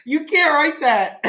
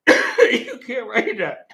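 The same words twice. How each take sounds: First: Laughing disbelief. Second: Slow, laughing through the words; can't believe they wrote that. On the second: Reading a script, laughing in slow disbelief. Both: Real, not acted.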